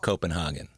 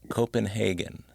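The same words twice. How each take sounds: First: The name is pronounced with a German-like accent. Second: The name is pronounced in a plain English way. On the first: The speaker calls it wrong. "Not Copenhagen. / that would be like more a German, I think, accent" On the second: The speaker calls it right. "That's how I pronounce it if I want to pronounce it correctly"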